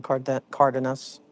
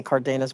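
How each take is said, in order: First: "Cardenas" as CAR-de-nas, said slowly; others' Cardenas pronunciation. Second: "Cardenas" as car-DAY-nas; own Cardenas pronunciation. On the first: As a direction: stress CAR at the start of "Cardenas". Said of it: "I've heard them say". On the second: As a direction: say "Cardenas" with a stressed DAY in the middle. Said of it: "I always say Cardenas". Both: Shown as a demonstration.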